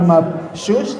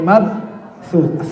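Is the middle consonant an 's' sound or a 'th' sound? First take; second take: s; th. First: The consonant is a plain 's' sound. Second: The consonant is a 'th' sound. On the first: The speaker calls it wrong. "bukan mabsus" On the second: The speaker calls it right. "tapi mabthus"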